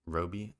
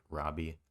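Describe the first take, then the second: First: Roby with first syllable like "row"; tentative ROH-bee for Roby, offered as an alternative; long-o pronunciation. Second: First vowel of Robbie as in "rob"; short-o pronunciation. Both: Shown as a demonstration. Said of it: "sorry if I'm mispronouncing the last name".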